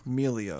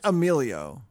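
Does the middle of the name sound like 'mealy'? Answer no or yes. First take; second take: yes; no. First: The middle sounds like the word 'mealy'. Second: The middle does not sound like 'mealy'. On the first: The speaker calls it right. "Like mealy" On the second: The speaker calls it wrong. "Not Emilio"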